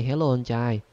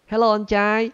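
First: Said in the usual way. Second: High, loud teasing greeting; loud playful hello to the fisherman; mock call out. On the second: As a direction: hail the fisherman loudly. Calls to fishermen to troll.

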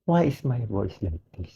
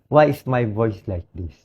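First: Softer, faster hoarse repeat; quick, softer repeat in a hoarse voice. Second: Hoarse, worn-out voice; a sick man's hoarse question; real hoarseness. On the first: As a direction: let it drop away, voice failing. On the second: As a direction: speak through a raw, lost voice. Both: Real, not acted. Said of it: "Paus na ako".

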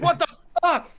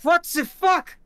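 First: Put-on high, loud freak-out in an American accent; panicked shout, German accent dropped. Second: Put-on high, loud German-accented freak-out; panicked German accent. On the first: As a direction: shriek in alarm, accent gone. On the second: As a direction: shout it in alarm with a German accent. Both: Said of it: "he drops the German accent".

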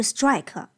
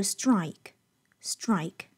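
First: "strike" with a faulty extra-vowel ending; mispronounced strike. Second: "strike" slow, r inside, clean final k; clear r, clean k. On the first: Teacher showing what to avoid, "strike" as "strike-uh". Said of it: "不是strike". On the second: Teacher correcting learners, "strike" slow with clear r. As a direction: say "strike" slowly as one syllable with r. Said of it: "一定注意当中这个er的音在里面". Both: Shown as a demonstration.

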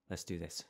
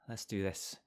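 First: Sigh, then a soft whispered let's do this. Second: Said in the usual way. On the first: Shown as a demonstration. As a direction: breathe out and whisper it to yourself. Psyching up before game starts.

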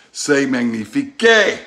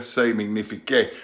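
First: Slow, grand French "C'est magnifique" said louder; a showy French exclamation; French flourish. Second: Said in the usual way. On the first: Shown as a demonstration. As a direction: roll out "C'est magnifique" like a proud chef. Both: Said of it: "That's French for".

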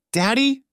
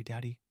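First: High, loud startled cry; bewildered cry. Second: Much softer, tear-choked daddy; sobbing daddy. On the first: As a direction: call out to him in disbelief. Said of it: "she cried out in bewilderment". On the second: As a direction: breathe it out through sobs. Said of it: "she sobbed". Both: A narrator's reading.

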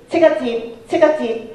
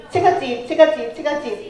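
The two takes are said the same way.

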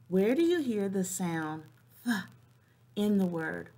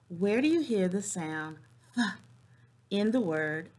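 No difference in how they are said.

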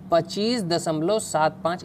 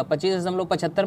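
First: सात पाँच read digit by digit after the point; correct digit reading. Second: पचहत्तर read as one whole number after the point; wrong way to read. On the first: Teacher showing students the right reading, digit by digit. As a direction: say सात, then पाँच, each digit on its own. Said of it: "इसे ऐसे पढ़ेंगे". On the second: Teacher showing students the wrong reading, पचहत्तर as one number. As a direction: say पचहत्तर as a single number, the incorrect way. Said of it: "मत पढ़िएगा". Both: Shown as a demonstration.

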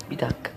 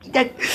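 First: "Bir dakika" dropped low and soft, under the breath; quiet puzzled mumble; low muttered wait. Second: "Bir dakika" jumped up high, squeaky and startled; high alarmed double take; sudden high-pitched wait. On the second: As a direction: yelp it high like something just went wrong. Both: Real, not acted. Repeats phrase in varied pitches.

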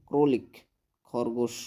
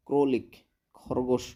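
No difference in how they are said.

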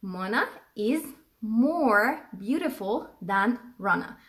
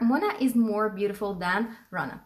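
First: Very slow, drawn-out example; teacher modelling the sentence slowly; slow dictation. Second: Somewhat slow model sentence; teacher repeating the example. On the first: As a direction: stretch every word for learners. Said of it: "أو هقول". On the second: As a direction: repeat it a bit slowly. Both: Shown as a demonstration.

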